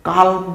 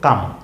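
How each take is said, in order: First: The L sound is pronounced in the word. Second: The L sound is left out of the word. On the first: The speaker calls it wrong. "কালম নয়" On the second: The speaker calls it right. "উচ্চারণ হলো কাম"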